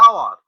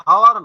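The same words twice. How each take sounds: First: আওয়ার begins on the open vowel, no h at all; hour, h silent. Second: হাওয়ার with an audible h at the start; hour said wrongly with h. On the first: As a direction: say আওয়ার cleanly without h. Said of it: "যেমন আমরা বলি আওয়ার". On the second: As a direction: sound the h in হাওয়ার as the error. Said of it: "হাওয়ার ন". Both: Shown as a demonstration.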